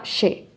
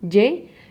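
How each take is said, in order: First: The consonant is pronounced like an sh sound. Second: The consonant is pronounced strongly, like a firm y. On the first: This is how it sounds in Argentina. "in Argentina, they do more like sha" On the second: This is how it sounds in Mexico. "we in Mexico, we do it a little bit stronger"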